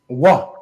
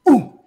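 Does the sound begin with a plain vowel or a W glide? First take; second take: W glide; plain vowel. First: A W sound comes before the vowel. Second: A plain oo vowel with no W sound. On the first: The speaker calls it wrong. "we've been taught to pronounce it wah. But wah is really a misnomer" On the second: The speaker calls it right. "this would have the oo sound"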